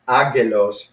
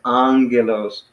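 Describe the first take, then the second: First: It starts with a plain 'ag' sound, no nasal. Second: It starts with a nasal 'ang' sound before g. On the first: The speaker calls it wrong. "you don't pronounce it as ag, ag, agelos" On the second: The speaker calls it right. "you pronounce it as angelos"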